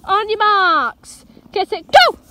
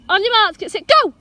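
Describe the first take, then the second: First: Slow, stretched "marks", then a louder "go"; excited race start with the dog, slow then loud; drawn-out countdown. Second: Brisk, higher countdown to the dog; quick playful race start. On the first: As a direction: drag out the build-up, then burst on go. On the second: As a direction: get the dog ready to run. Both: Real, not acted.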